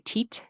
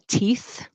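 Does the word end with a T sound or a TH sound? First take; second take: T sound; TH sound. First: The word ends with a T sound. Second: The word ends with a TH sound. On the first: The speaker calls it wrong. "I hear people say teat, teat, like with a T sound" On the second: The speaker calls it right. "instead of saying"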